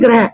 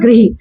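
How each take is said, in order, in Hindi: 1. 'r' के बाद 'a' स्वर आता है। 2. 'r' के बाद 'i' स्वर आता है। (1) "कुछ लोग बोलते हैं ग्रह" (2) "सही शब्द क्या उच्चारण होता है इसका"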